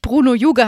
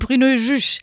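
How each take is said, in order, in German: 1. Der Name wird deutsch ausgesprochen. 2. Der Name wird französisch ausgesprochen. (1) "dass der Minister nicht Bruno Juge heißt" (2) "sondern Bruno Juge"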